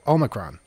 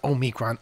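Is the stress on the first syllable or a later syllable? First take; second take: first; later. First: The stress is on the first syllable. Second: The stress is on a later syllable. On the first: The speaker calls it right. "Emphasis on the first syllable" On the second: The speaker calls it wrong. "No, not Omicron"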